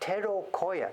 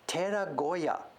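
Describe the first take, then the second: First: The third syllable starts with a 'k' sound. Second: The third syllable starts with a 'g' sound. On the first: The speaker calls it wrong. "That's wrong" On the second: The speaker calls it right. "Tera, temple. Goya, small room inside the temple"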